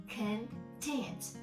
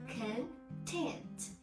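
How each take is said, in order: First: The stress is on the second syllable. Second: The same.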